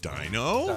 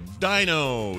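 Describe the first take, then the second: First: The voice rises at the end of the word. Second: The voice falls at the end of the word. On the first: This is how the child says it, like a question. "He goes dino" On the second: This is how the child does not say it. "he doesn't go dino"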